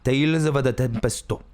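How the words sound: It is said in a Japanese-style accent. "they will go, Tales of the Tempesto. That's how they would say it"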